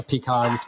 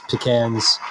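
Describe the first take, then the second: First: "pecans" said pee-KAHNZ, with the stress on the second syllable and a broad ah; "pecans" as pee-KAHNZ, long ah at the end; pecan pronunciation. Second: "pecans." said pi-KANZ, with a short flat a; "pecans." as pi-KANZ, with the a of "can"; pecan pronunciation. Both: Shown as a demonstration. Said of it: "I honestly, I switch".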